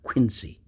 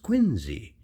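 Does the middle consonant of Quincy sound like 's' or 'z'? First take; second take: s; z. First: The middle consonant is an s sound. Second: The middle consonant is a z sound. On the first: The speaker calls it wrong. "not Quincy. That's not the way it was pronounced" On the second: The speaker calls it right. "It was pronounced Quincy, like Q U I N and then Z E"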